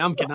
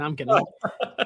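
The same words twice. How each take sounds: First: Said in the usual way. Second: Laughing through the words, slow. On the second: Real, not acted. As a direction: chuckle out I'm kidding. Laughing at his own joke.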